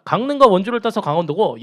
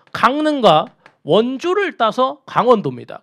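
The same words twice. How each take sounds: First: Said in the usual way. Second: Slow, stressed "원주를" with a falling tune; slow emphatic explanation. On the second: Shown as a demonstration. Teacher spelling out the province name for students, slow and stressed. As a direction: lay out each city name deliberately.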